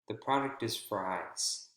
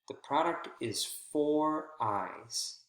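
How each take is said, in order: First: The word "for" is reduced and weak. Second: The word "for" is stressed and clear.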